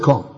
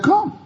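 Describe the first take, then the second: First: Said in the usual way. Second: A high, soft single come; high inviting call. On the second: Retold or imitated. Jesus invites Peter onto the water, high and soft. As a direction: float the word come up high. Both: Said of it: "And he said".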